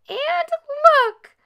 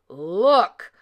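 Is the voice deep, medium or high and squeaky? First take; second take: high and squeaky; deep. First: It is squealed in a small voice. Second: It is growled in a deep voice.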